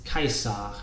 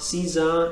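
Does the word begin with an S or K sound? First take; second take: K; S. First: The word begins with a K sound. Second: The word begins with an S sound. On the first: The speaker calls it right. "So note the K sound here" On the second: The speaker calls it wrong. "So it's not Caesar"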